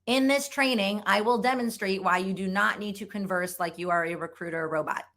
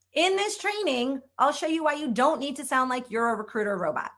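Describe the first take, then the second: First: Formal, uncontracted, wooden read; lightly stiff corporate recruiter voice; stiff robotic recruiter. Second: Said in the usual way. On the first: Shown as a demonstration. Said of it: "what a robotic recruiter might sound like". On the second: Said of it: "let's make a couple modifications".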